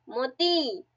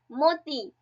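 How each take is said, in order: First: मोती with the last ई held long; stretched final ई. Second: Said in the usual way. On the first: Shown as a demonstration. Teacher shows the ई ending, मोती stretched out. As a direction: linger on the closing ई of मोती. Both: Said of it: "ई आ रहा है".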